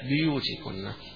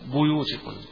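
First: The first letter carries an i vowel. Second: The first letter carries a u vowel. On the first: "باقي القراء يقرؤونها بكسر الباء" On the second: "بيوتكن قراءة حفص عن عاصم"

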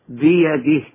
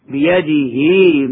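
First: The final h is silent with no vowel. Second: The final h is followed by a lengthened vowel. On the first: The reciter stops on this word. "وعند الوقف تسكن بدون مد" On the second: The reciter continues without stopping. "فالهاء ممدودة مدا طبيعيا في هذه الأمثلة وصلا"

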